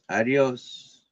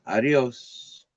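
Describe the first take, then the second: Both takes have the same delivery.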